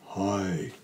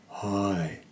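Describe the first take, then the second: First: It is said at a low pitch. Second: The same.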